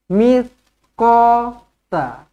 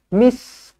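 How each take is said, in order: First: The consonant is a lisped 'th' sound. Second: The consonant is a plain 's' sound. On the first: The speaker calls it right. "huruf ta hujung lidah sahaja" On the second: The speaker calls it wrong. "Kalau misqa huruf sin"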